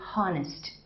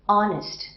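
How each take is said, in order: First: The H at the start is pronounced. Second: The H at the start is silent. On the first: The speaker calls it wrong. "I don't say honest" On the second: The speaker calls it right. "like honest"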